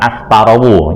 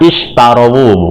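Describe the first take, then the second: First: The word begins with an 'as' sound. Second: The word begins with an 'ish' sound. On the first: The speaker calls it wrong. "bukan astarawu" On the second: The speaker calls it right. "bacanya ishtarawu"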